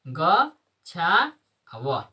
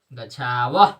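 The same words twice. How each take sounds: First: गच्छाव drawn out very slowly, every syllable held; slow pronunciation demo. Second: Said in the usual way. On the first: Shown as a demonstration. Teacher to class, modelling the word very slowly. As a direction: stretch गच्छाव out long so each sound is heard. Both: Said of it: "शुद्ध उच्चारण करना है".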